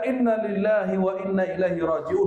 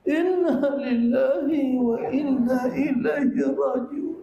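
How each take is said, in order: First: It is said firmly and plainly. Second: It is said in a wailing, mournful way.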